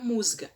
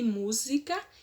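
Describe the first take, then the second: First: The middle i vowel is dropped. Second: The middle i vowel is pronounced.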